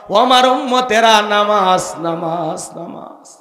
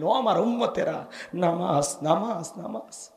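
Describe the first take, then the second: First: Loud call fading into a whisper; last words dying down to breath; dying Prophet's appeal. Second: Soft appeal fading to a whisper; hushed call dying away; dying Prophet's last words. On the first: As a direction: call out, then let each repeat sink away. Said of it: "এর মধ্যে একটি কথা". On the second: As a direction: repeat it ever fainter, as with a last breath. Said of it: "আপনাকে আমাকে বলে গেলেন". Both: Acted.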